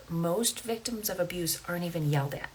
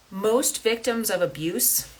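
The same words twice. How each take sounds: First: "most" leaned on in a softer, quieter repeat; softer restatement. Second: MOST stretched on a rising tune, slowly; slow emphatic statement. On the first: Host repeats the point to listeners, softer and settled. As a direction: say it again quietly so it sinks in. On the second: Podcaster stresses a key point to listeners, slowly and emphatically. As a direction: lean on "most" and draw the line out slowly. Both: Shown as a demonstration. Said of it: "Oh, let that sink in".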